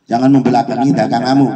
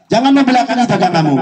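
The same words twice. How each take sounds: First: Said in the usual way. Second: First take pitched up high, urgent; high emphatic warning. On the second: Real, not acted. Repeats the warning twice. (peringatan bernada tinggi)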